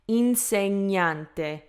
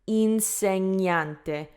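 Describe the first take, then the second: No difference in how they are said.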